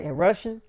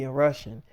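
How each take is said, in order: First: "Russian" lifted into a question; questioning echo. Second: Said in the usual way. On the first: Retold or imitated. Storyteller echoes actress's film news, questioning echo. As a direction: echo "Russian" higher, with a rising end.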